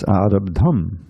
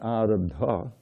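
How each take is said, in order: First: The word ends in an M sound. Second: The word ends in a vowel sound. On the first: The speaker calls it right. "pronounce it like an M" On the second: The speaker calls it wrong. "It's not arabdha"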